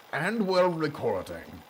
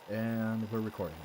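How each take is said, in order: First: Higher, louder grand nobleman; pompous noble voice. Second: Said in the usual way. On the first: Acted. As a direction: announce it like a self-important aristocrat. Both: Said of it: "I guess I'm gonna go into pompous noble voice".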